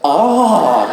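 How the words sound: It is a cry of pleasure.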